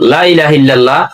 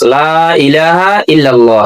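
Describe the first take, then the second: First: The first vowel is cut short. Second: The first vowel is drawn out long. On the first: There are many lords besides Allah. The speaker calls it wrong. "এটাকে এভাবে পড়েন ... লামে তাকিদ হয়েছে" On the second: There is no god except Allah. The speaker calls it right. "এটা আপনাকে এইভাবে উচ্চারণ করতে হবে"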